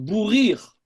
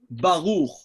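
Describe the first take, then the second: First: The second vowel is pronounced ee. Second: The second vowel is pronounced oo. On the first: "les juifs d'Europe de l'Est prononcent Bourir" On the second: "pratiquement tout le monde prononce le kubutz ou"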